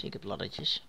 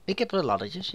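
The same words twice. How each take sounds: First: Breathy whispered laddertjes; whispering. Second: Said in the usual way. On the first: Shown as a demonstration. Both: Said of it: "Laddertjes, dat klinkt ook eens zo".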